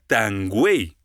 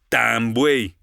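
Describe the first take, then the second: First: The word begins with a g sound. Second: The word begins with a b sound. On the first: "cambiar la letra B por la letra G"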